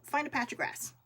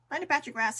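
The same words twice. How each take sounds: First: Said in the usual way. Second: "patch" pressed harder, a bit louder; repeated for emphasis. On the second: Shown as a demonstration. Urging viewers outside, repeating it with louder emphasis. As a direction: hammer the repeat home.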